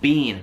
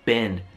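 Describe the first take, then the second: First: It is said with a British accent. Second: It is said with an American accent. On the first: "loro dicono bean" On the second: "mentre io dico been"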